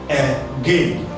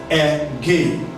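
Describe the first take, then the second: No difference in how they are said.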